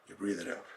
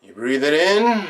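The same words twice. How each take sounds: First: Barely audible, low exhale cue; breathing-out cue. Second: Full-voiced inhale cue, stretched "in"; breathing-in cue. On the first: Acted. Meditation leader cueing listeners to exhale, very soft and low. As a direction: sink to almost nothing on the breath out. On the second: Meditation leader cueing listeners to inhale, stretched and full. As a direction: draw out "in" as the breath fills.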